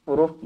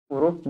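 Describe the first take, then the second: No difference in how they are said.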